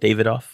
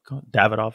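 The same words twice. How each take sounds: First: The name is said the British way. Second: The name is said the South Florida way. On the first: "When you're with Brits, they always call it Davidoff" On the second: "Here in South Florida, Davidoff all the time"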